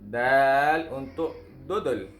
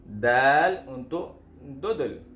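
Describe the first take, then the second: The two takes are said the same way.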